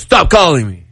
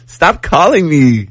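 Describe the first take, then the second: First: It sounds firm and serious, really meant. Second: It sounds playful and teasing, not meant.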